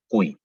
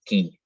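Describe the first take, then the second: First: Qui dicho cui, con u; u pronunciada. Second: Qui con u muda, como en español. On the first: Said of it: "Siempre se pronuncia esa U". (qui pronunciado cui) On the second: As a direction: di qui sin u. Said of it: "no diríamos". (qui pronunciado ki) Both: Shown as a demonstration.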